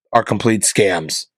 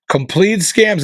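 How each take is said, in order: First: Said in the usual way. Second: "Complete scams." repeated higher with scams hit hard; stress on scams. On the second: Shown as a demonstration. Ranting to viewers that fancy vets are scams, stress on "scams". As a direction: punch the word "scams" as an outraged repeat.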